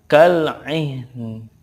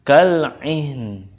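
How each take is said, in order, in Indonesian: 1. Kata ini berakhir dengan n mati. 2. Kata ini berakhir dengan n mati.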